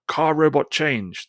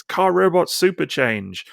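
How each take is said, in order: First: Higher, slow toy-robot announcement; hammed-up robot call. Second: Higher, slow toy-robot battle cry; hammed-up robot call. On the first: Retelling the comic's speech bubble as a slow robot call. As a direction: call it out like a toy sound chip. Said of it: "the speech bubble or whatever says". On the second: Reading a comic panel as a slow robot battle cry. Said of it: "shouting as they're in battle".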